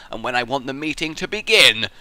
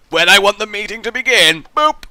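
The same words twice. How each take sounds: First: Said in the usual way. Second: High, loud evil-boss announcement; villain boss voice. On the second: Pretend. Boss to his staff, a loud villain voice. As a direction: boom it out like a gloating villain.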